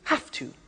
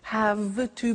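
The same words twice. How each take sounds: First: The word 'have' ends with an F sound. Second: The word 'have' ends with a V sound.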